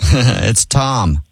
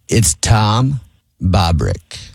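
First: It is said at normal speed. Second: It is said more slowly.

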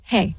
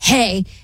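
First: It is said flat, in a monotone. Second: It is said in an angry tone.

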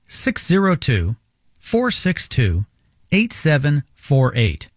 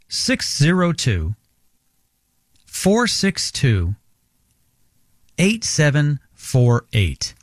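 First: It is said at normal speed. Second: It is said more slowly.

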